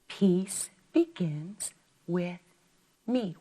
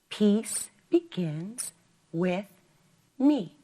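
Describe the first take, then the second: No difference in how they are said.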